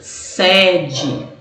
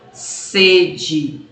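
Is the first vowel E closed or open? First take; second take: open; closed. First: The first vowel is an open E. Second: The first vowel is a closed E. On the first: It means a headquarters or host venue. "a pronúncia da letra E é aberta" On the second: It means thirst. "a pronúncia da primeira letra E é fechada"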